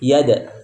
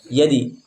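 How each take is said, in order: First: The bounce after d sounds like a. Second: The bounce after d sounds like i. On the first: "condong kepada fathah yada" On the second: "condong kepada kasroh yadi"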